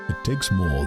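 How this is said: It is said in a put-on deep voice. The speaker calls it right. "deep voice time"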